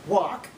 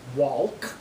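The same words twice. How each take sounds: First: The word is said with a silent L. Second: The word is said with an audible L. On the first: "you don't pronounce the L inside of the word walk" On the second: "You don't say walk"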